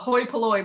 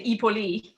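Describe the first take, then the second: First: It is said as 'hoy puh-loy', English style. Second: It is said as 'ee-po-lee', Greek style.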